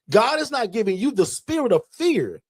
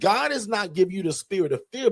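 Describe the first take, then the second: First: It is said slowly and deliberately. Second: It is said quickly and smoothly.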